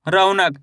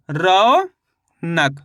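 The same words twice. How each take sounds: First: Said in the usual way. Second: रौनक very slowly, long rising रौ, gap, lower नक; syllable by syllable. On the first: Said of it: "शब्द का उच्चारण सुनना है". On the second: Shown as a demonstration. Teacher showing the finished spelling to learners, रौनक drawn out in two parts. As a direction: break रौनक into a stretched रौ and a separate नक. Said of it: "तो मिलके बन गया ये".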